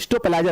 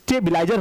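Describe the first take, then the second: First: The first part sounds like 'stop'. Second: The first part sounds like 'stab'. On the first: The speaker calls it wrong. "हम लोग बोलते हैं स्टोपलाइजर नहीं" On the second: The speaker calls it right. "स्टेबिलाईजर होता है"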